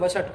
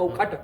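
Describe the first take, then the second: First: The middle consonant is pronounced as sh. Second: The middle consonant is pronounced as kh. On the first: It is only being talked about, not used in a ritual. "तब वसट ही कहते हैं" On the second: It is being used in an actual ritual. "खकार उच्चारण करते हैं"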